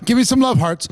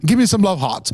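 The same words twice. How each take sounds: First: Said in the usual way. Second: Lightly imitated accent, dropping the R in "hearts"; Fraser impression. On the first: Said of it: "No, wait, I gotta do my". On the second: Host playfully mimics a fellow presenter for the audience, light accent impression. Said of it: "my Frasier impression".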